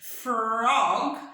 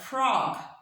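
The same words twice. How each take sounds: First: Each sound is said separately and very clearly. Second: The first two sounds are melted smoothly together. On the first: The speaker calls it wrong. "we don't try to say each of these to sound super clear" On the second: The speaker calls it right. "we melt them together"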